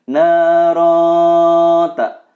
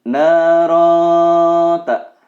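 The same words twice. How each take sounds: No difference in how they are said.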